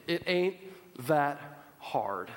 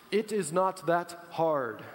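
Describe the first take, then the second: First: "ain't" said casually, voice dropping low on "that hard". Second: Slow, every word spelled out in "It is not that hard"; proper corrected take. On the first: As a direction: slip in a folksy "ain't". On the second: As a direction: correct yourself deliberately and slowly. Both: Shown as a demonstration. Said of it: "Sorry, "ain't" is an improper word".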